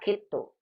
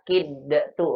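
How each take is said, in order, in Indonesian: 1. Bunyi d menyatu sepenuhnya menjadi t ganda. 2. Bunyi d dilepas terpisah sebelum t. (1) "tapi langsung ke apa? Kata kitu" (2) "Tanpa kita kolkolahkan kata kid tu enggak"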